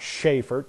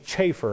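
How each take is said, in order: First: The name begins with an 'sh' sound. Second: The name begins with a 'ch' sound. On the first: The speaker calls it wrong. "not Schaefer" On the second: The speaker calls it right. "he pronounced his name Chafer, C-H"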